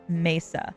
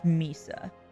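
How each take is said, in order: First: The word is pronounced in a Spanish way. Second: The word is pronounced in an anglicized way. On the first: The speaker calls it right. "It's Mesa. Like, Mesa being, you know, a Spanish word" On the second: The speaker calls it wrong. "the most anglicized way of saying that I have ever heard"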